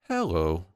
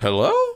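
First: The pitch falls across the word. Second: The pitch rises at the end. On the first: The speaker sounds determined. "So the descending pitch" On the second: The speaker inspires trust. "they should end their greeting on a higher note"

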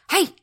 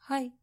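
First: It is a sharp, forceful karate-style shout. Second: It is a weak, half-hearted greeting.

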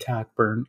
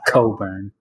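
First: The middle k sound is clearly pronounced. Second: The middle k sound is left silent. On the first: The speaker calls it right. "I want Kofi Cockburn on the court" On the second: The speaker calls it wrong. "two of those letters are silent"

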